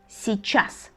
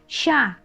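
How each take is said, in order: First: The word is said fully with all its sounds. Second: The word is cut down to one short syllable.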